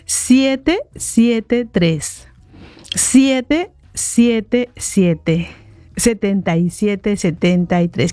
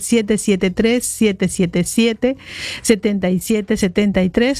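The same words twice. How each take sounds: First: The number is said more slowly. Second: The number is said at normal speed.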